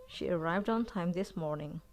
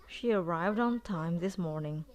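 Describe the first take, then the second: Both takes have the same delivery.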